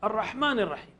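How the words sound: It is recited warmly, with deep feeling. The speaker calls it right. "दिल से पढ़िए"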